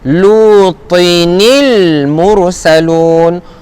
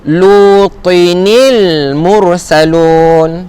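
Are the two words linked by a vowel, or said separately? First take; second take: linked; linked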